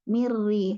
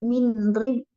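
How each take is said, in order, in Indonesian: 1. Bunyi n menyatu sepenuhnya ke dalam r yang dobel. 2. Bunyi n diucapkan terpisah sebelum r. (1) "langsung mirri. Langsung ke ro-nya" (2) "Tidak min ri"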